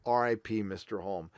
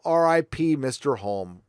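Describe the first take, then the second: First: Hushed farewell. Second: Said in the usual way. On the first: Real, not acted. Repeats tribute, much softer.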